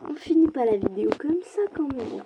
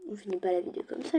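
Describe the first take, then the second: First: Indignation plus aiguë qui retombe; proteste, incrédule, d'une voix montée; protestation. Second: Said in the usual way. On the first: Real, not acted. Proteste après la défaite. (refus plaintif, haut perché)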